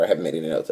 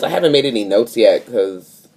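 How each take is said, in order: First: Lower, softer muttered aside; low, soft throwaway repeat. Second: Said in the usual way. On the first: Real, not acted. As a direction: mutter it to yourself, trailing off. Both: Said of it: "I don't know, whatever".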